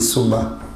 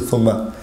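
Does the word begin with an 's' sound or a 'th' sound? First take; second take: s; th. First: The word begins with an 's' sound. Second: The word begins with a 'th' sound. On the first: The speaker calls it wrong. "they say summa" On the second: The speaker calls it right. "They don't say thumma"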